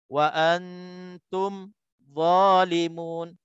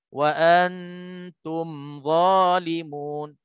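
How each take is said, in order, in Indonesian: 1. Bunyinya terputus setelah mim. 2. Mim-nya mengalir lancar ke kata berikutnya.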